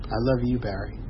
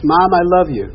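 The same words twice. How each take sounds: First: Softer, lower "I love you"; retold mother's quiet affection; soft reply. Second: Higher, louder "I love you"; retold eager affection; loud declaration. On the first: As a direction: give the words back quietly. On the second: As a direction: call it out to a parent. Son's call before mother's softened reply.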